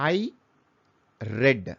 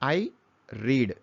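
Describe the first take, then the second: First: The word 'read' rhymes with 'bed'. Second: The word 'read' rhymes with 'seed'. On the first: The reading happened in the past. "కింద ఆర్ఈఏడి అనే పదాన్ని same అదే పదాన్ని రెడ్ అని పలుకుతున్నాను" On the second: The reading happens in the present. "పైన ఆర్ఈఏడి అనే పదాన్ని రీడ్ అని పలికాను"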